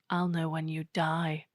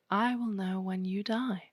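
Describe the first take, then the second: First: It is said in a menacing, creepy tone. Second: It is said in a harmless, ordinary tone. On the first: The statement sounds threatening. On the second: The statement sounds innocent.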